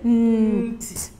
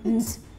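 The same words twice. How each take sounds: First: The sound is said slowly, with parts apart. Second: The sound is said fast, with parts blended. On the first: The speaker calls it wrong. "You don't say nt. That is wrong" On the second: The speaker calls it right. "Just say nt. It's very fast"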